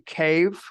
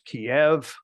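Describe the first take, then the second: First: The name is said in a non-Russian way. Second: The name is said the Russian way. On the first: "I say Kyiv" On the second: "the Russian uh, way of describing it is Kiev"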